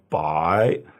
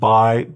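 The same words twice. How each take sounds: First: The syllable is said with a third tone. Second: The syllable is said with a fourth tone. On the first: It means hundred. "it becomes third tone" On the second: "I think it's fourth tone"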